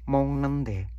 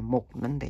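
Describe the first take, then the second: First: The first syllable ends with a nasal ng sound. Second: The first syllable ends with a hard g sound. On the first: The speaker calls it right. "Ini dibaca N G" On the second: The speaker calls it wrong. "bukan bacanya Mognende ya, salah"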